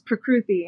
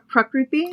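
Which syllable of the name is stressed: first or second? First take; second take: second; first. First: The stress is on the second syllable. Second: The stress is on the first syllable. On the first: This is the Americanized way of saying it. "the Americanized way" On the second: This is the original Indian way of saying it. "the Indian way of saying my name where you put the emphasis on the first syllable"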